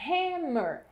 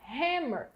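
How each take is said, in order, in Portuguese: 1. A palavra começa com um som de H audível. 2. A palavra começa com um som de H audível.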